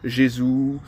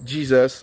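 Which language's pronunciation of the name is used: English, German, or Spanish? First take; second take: German; English. First: The name is pronounced the German way. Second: The name is pronounced the English way. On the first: "en Allemagne on va dire" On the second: "les Anglais disent"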